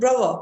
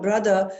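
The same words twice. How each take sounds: First: It is said in a London accent. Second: It is said in a non-London accent. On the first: "if you go to like uh, London, they'll call you brother" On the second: "like we call brother"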